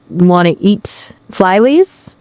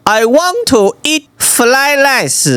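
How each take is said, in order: First: Slow, tentative attempt at a Chinese accent; botched Chinese accent. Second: Slow, high, exaggerated Chinese accent. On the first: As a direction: copy a Chinese accent badly, questioning and unsure. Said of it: "flyleys is not really fried rice". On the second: Shown as a demonstration. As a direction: demo a thick Chinese accent, drawn out and high. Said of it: "try to do the accent".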